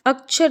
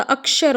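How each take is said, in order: First: अक्षर said as "akchhar", ch for sh; mispronunciation demo. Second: अक्षर with "ksh", as "akshar"; correct pronunciation. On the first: Teacher showing the mistake, अक्षर as "akchhar". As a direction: turn the क्ष of अक्षर into "kchh". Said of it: "अक्षर नहीं होता". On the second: Teacher correcting students, अक्षर as "akshar". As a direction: say a clear sh after k in अक्षर. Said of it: "अक्षर होता है". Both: Shown as a demonstration.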